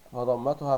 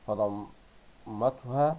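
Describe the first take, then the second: First: Said in the usual way. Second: "فضمتها" drawn out slowly in separate syllables; very slow sounding-out of "فضمتها". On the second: Shown as a demonstration. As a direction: break "فضمتها" into slow pieces, pausing inside the word. Sounds out word while reading.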